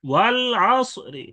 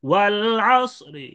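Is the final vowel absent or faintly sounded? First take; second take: faintly sounded; faintly sounded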